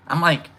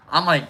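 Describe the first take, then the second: No difference in how they are said.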